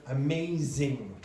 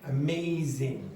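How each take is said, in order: Both takes have the same delivery.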